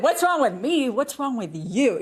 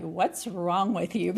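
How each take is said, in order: First: Higher, louder mock accusation; mock accusing. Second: Slow, half-laughing mock jab; blunt accusing question. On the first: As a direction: snap the question back like a jab. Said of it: "I have heard it said". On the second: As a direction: toss out the dreaded question with a wry laugh. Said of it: "the term that so many women don't wanna hear".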